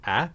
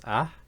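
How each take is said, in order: First: Said in the usual way. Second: Ah with tongue root pulled back; retracted ah with an h-like tail; pharyngealized vowel. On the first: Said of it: "So a becomes ah". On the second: Shown as a demonstration. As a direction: let ah end in a breathy voice. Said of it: "pull the root of our tongue back".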